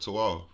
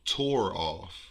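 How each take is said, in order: First: The r sound in tore is dropped. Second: The r sound in tore is pronounced. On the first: This is the local Richmond slang form. "but we we say toe" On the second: This is the standard form most people use. "The proper way that it, that people would say it with tore off"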